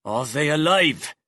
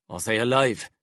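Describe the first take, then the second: First: Louder, pressing demand; insistent. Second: Said in the usual way. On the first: Acted. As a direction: repeat it with force. Severin repeats, insisting.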